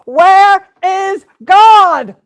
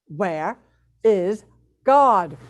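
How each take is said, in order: First: It is bellowed at full volume. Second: It is said sterner and louder.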